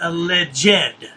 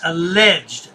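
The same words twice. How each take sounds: First: The ending is said as a separate syllable. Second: The ending is not a separate syllable. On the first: The speaker calls it wrong. "He always pronounces the E D" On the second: The speaker calls it right. "It's alleged"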